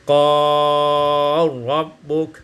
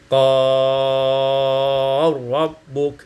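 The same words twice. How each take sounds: First: The lengthened vowel is held medium length. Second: The lengthened vowel is held long.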